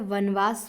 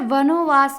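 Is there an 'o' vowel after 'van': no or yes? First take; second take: no; yes. First: No 'o' vowel follows the first syllable. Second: An 'o' vowel follows the first syllable. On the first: The speaker calls it right. "शुद्ध होता है" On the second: The speaker calls it wrong. "गलत है"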